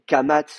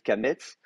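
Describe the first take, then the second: First: Both vowels are the sound 'a'. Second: The second vowel is the sound 'e'. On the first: This is the modern Hebrew form. "on dit kamatz" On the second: This is the traditional form. "au lieu de kametz"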